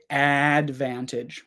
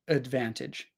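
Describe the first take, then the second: First: The first vowel is a full, unreduced vowel. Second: The first vowel is a reduced schwa sound. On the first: The speaker calls it wrong. "we don't say advantage" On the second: The speaker calls it right. "We say advantage, ... we've got the schwa sound here on the first one"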